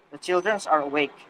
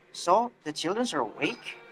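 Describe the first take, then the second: First: Said in the usual way. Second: Surprised echo question, rising at the end. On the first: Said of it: "will have normal tone, no surprise". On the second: Shown as a demonstration. Answerer surprised by what the questioner said, surprised. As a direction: swing up on "awake" in surprise. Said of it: "the one who answered will have surprise".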